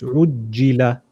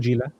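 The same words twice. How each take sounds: First: The middle consonant is held doubled. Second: The middle consonant is short and single. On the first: The speaker calls it right. "It's ujila" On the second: The speaker calls it wrong. "not ... You're missing one completely"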